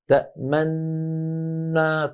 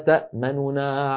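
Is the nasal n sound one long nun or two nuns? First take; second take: one nun; two nuns. First: One long nasal n with a drawn-out hum. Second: Two n sounds, the first quick and quiet. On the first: "الذي تلقيته هكذا تأمنا، طالما أن النون ممطوطة الغنة ممطوطة" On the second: "الروم ... يكون بخفض الصوت مع السرعة، وبالتالي النطق يكون بنونين"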